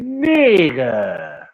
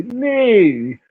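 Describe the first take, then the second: First: "Nigga" stretched long, with the first vowel held; drawn-out word. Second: "Nigga" in a mock West Coast accent, pitched much higher and short; a quick, high imitation of a West Coast "Nigga". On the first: Retold or imitated. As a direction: drag out "Nigga" the way he does. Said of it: "he make it, like, long". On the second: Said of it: "That nigga say".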